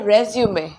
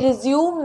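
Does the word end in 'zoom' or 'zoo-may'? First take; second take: zoo-may; zoom. First: It ends in 'zoo-may' with a final vowel. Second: It ends in 'zoom' with no final vowel. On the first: The speaker calls it right. "ये है रेज्यूमे" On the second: The speaker calls it wrong. "ये रिज्यूम नहीं है"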